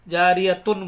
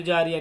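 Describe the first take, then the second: First: जारियतुन with "-tun" fully sounded; जारियतुन kept whole, closing on n; joined-reading ending. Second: जारिया ending open with a light h, no "tun"; जारिया cut to its stopped form; pausal ha ending. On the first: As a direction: pronounce t and final n in जारियतुन. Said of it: "उस वक्त में जारियतुन बोलेंगे". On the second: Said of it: "फिर जारिया नहीं बोलेंगे". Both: Shown as a demonstration.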